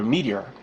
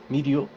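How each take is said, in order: First: It is said with the English pronunciation. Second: It is said with the Japanese pronunciation. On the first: "the westernized pronunciation" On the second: "It's spelled more like media"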